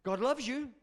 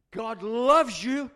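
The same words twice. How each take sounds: First: Said in the usual way. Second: "loves" drawn out long and very loud; stress on loves. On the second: Real, not acted. Preacher repeating it to the congregation, "loves" loud and drawn out. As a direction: hit "loves" hard and stretch it slowly.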